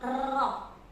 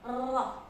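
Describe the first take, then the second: First: The r has a long, excessive trill. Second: The r has a long, excessive trill.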